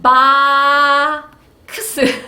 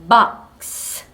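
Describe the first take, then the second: First: The k sound forms its own separate syllable. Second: The k sound closes the first syllable. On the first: The speaker calls it wrong. "바 크스 이렇게 읽는 친구들이 있어요" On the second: The speaker calls it right. "바크스가 아니라 박 하고"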